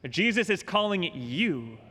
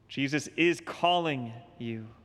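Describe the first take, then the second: First: The stress falls on the word you. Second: The stress falls on the word is. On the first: The call is personal to the listener. "change the emphasis one more time on that statement" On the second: The call is happening right now. "He's calling you now"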